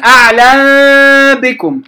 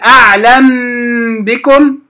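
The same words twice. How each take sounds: First: The lips open wide on the m sound. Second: The lips close fully on the m sound. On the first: "أفتح الشفتان على آخرهما، خطأ" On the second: "لا أقول أعلم بكم، خطأ"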